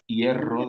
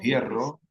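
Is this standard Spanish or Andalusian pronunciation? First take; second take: standard; Andalusian. First: It is said in standard Spanish. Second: It is said in an Andalusian accent.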